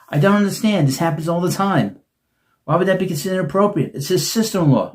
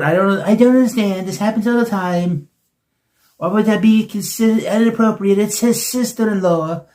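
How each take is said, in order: First: It is said in his normal voice. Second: It is said in a put-on imitating voice.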